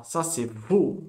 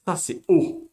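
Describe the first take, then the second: First: "vo" said slowly as the wrong reading, with a "v"; the wrong reading "vo", drawn out. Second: "O" said alone with no "v", a bit louder; the right reading "O", no consonant before it. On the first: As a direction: show the mistake, slowly saying "vo". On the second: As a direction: give the correct plain "O". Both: Shown as a demonstration. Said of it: "C'est pas vo".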